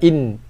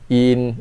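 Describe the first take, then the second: First: The opening vowel is clipped and barely sounded. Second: The opening vowel is held for one full beat. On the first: The speaker calls it wrong. "Bukan in" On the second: The speaker calls it right. "kita bunyikan dia dengan kadar satu harakat dulu"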